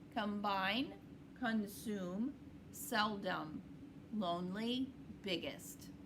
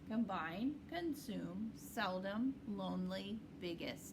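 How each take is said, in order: First: The words are read at a medium pace. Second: The words are read at a quicker pace. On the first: "let's do these medium fast" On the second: "A little bit faster"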